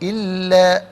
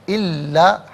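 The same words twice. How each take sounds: No difference in how they are said.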